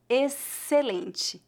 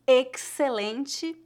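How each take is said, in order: First: "Excelente" slowly, with a plain S sound, "eselentchi"; correct pronunciation. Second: "excelente" with a hard "ks" for the X; wrong pronunciation. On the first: Teacher to students giving the right version, slowly. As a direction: say "Excelente" as if the X and C were just S. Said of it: "Faça de conta que as letras X, C são a letra S". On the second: Teacher to students showing how not to say it, with "ks". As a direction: demo of the mistake: "excelente" as "eksselente". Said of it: "Não pronunciamos". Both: Shown as a demonstration.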